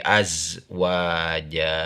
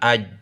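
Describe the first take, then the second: First: The syllable ends with a z sound. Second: The syllable ends with a j sound. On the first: The speaker calls it right. "tapi azwaja" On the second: The speaker calls it wrong. "jangan aj"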